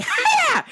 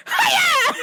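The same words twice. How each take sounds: First: High sharp martial arts cry; karate yell. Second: High loud karate cry; karate yell. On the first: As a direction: bark it like a karate chop. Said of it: "And I was like". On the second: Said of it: "on the intercom go". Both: Retold or imitated.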